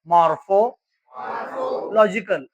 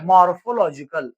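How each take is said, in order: First: The word is split into two parts. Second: The word is said smoothly as one unit.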